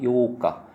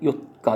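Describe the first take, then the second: First: The first vowel is held long. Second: The first vowel is kept short. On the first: It means the eighth day. The speaker calls it right. "그건 길게 발음하는 거예요" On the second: It can be confused with the fourth day. The speaker calls it wrong. "이걸 길게 발음 안 하고 요가 그러면은"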